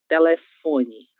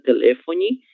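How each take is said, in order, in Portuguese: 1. A tônica cai na sílaba fo. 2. A tônica cai na sílaba le. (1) "A sílaba mais forte é a sílaba fó" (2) "Temos aqui esse lé, né, com mais força"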